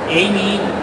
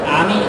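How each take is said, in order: First: The name is said the English way. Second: The name is said the Japanese way. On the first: This is the earlier dub's version of the name. "Früher Amy" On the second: This is the current dub's version of the name. "also jetzt, glaube ich, ne? ... eher die japanischen Ausprägungen"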